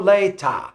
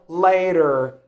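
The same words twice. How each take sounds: First: The middle T is a hard, crisp T. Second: The middle T sounds like a soft D. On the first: "in the British accent, the T is hard" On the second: "in the American English, it looks like the D sound"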